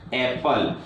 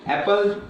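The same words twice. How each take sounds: First: Said in the usual way. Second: Apple said higher with a rising tune. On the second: Shown as a demonstration. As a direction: lift the word Apple up at the end. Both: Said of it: "For example".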